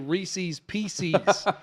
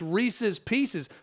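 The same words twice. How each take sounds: First: The first word rhymes with feces. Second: The first word does not rhyme with feces. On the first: The speaker calls it wrong. "People like to say Reese's Pieces, and I'm thinking, you don't want to rhyme a candy with feces" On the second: The speaker calls it right. "It's Reese's Pieces"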